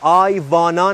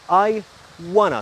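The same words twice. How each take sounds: First: Wanna begins with a v-like sound. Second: Wanna begins with a rounded w sound. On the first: The speaker calls it wrong. "نگو" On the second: The speaker calls it right. "دبلیو رو او تلفظ کن"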